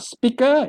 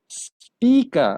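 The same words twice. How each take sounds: First: The first vowel is short. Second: The first vowel is long. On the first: The speaker calls it wrong. "It's not speaker" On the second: The speaker calls it right. "a little bit longer"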